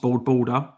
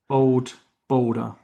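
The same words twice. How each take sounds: First: The name is said quickly and runs together. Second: The name is said slowly and carefully. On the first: The speaker calls it wrong. "If you say it too fast" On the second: The speaker calls it right. "You have to say it slowly"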